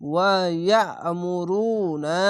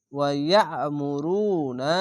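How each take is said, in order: First: ইয়ামুরুনা with long drawn vowels; slow chanted ওয়া ইয়ামুরুনা; stretched madd. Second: ইয়ামুরুনা slowly recited; slow tajweed ইয়ামুরুনা; stretched madd. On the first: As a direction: draw out ওয়া ইয়ামুরুনা slowly. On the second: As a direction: read ওয়া ইয়ামুরুনা slowly with long vowels. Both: Shown as a demonstration. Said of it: "আলিফ টেনে পড়বেন".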